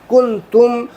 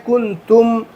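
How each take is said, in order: Both takes have the same delivery.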